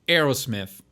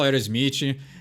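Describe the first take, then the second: First: It is said with an English pronunciation. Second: It is said with a Brazilian Portuguese pronunciation. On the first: "como se pronuncia corretamente" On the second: "Eu falo Aerosmith"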